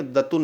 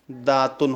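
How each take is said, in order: First: दतुन with a short first vowel; wrong pronunciation. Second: दातुन with a long first aa; correct pronunciation. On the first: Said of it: "दतुन नहीं होता है". (दतुन में छोटा अ, गलत) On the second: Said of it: "दातुन होता है". (दातुन में लंबा आ, सही) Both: Shown as a demonstration.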